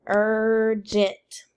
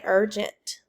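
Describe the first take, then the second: First: URGENT in two drawn-out beats, ur-gent; split into syllables. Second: Said in the usual way. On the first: Shown as a demonstration. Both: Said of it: "Clap it".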